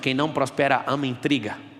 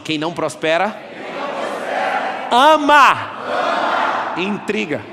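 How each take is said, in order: First: It is said in a plain, calm voice. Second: It is said loudly and with force.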